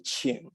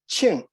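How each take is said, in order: First: The pitch dips down and then rises. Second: The pitch starts high and then falls. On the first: "You actually go down in pitch and then up. That would be qing" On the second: "Qing is an oblique tone. ... you start with a high pitch tone and then you drop the pitch"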